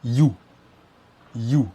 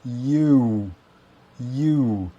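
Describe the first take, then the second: First: You said stiffly the French way; French wrong you. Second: You said with a rounded English oo; correct English you. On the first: Teacher imitates French learners' wrong you. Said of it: "ils vont dire". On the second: Teacher models the correct English you. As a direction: say you as in two. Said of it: "c'est ou". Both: Shown as a demonstration.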